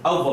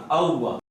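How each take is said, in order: First: "اووا" with waw unrounded, toward a fa sound; common mispronunciation. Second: "اووا" with fully rounded lips on the doubled waw. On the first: Retold or imitated. Teacher showing students the mistake to avoid, mispronounced waw. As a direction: mispronounce "اووا", lips not rounded. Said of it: "اس کو اووا نہیں پڑھنا". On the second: Shown as a demonstration. Teacher correcting students' doubled waw, rounded articulation. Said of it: "ہونٹوں کو گول کرنا".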